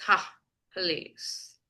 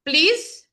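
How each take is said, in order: First: Low, drawn-out sarcastic please; scoff, then stretch out a mock please. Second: Said in the usual way. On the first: Shown as a demonstration. Teacher showing how please can be sarcastic, sarcastic. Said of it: "you can be sarcastic like". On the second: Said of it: "Again, you can be sarcastic like".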